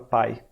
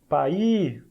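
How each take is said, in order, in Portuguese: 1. O i final é curto, então é uma sílaba. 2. O i final é prolongado, então são duas sílabas. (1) "esse I tem que ser pequenininho, tem que ser breve" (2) "Se você falar o som do I em excesso, vai virar outra palavra"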